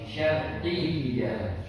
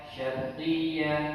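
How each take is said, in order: First: The doubled y is pressed with clear emphasis. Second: The doubled y is said lightly, without pressure. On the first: The speaker calls it right. "tapi syarqiyya" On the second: The speaker calls it wrong. "bukan dibaca syarqiyah"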